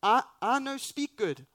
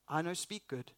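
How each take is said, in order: First: Higher, louder, flustered broken English; mock Moses. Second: Mock broken English. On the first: Moses telling God he can't speak, higher and louder. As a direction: blurt it out like a panicked Moses. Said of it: "It's like". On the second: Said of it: "is essentially what Moses is saying".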